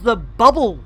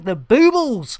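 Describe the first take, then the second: First: The name is said as plain 'bubble'. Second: The name is said as 'boobles' with long vowels. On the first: The speaker calls it wrong. "You have probably heard it mispronounced as the bubble" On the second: The speaker calls it right. "it is in fact the boobles"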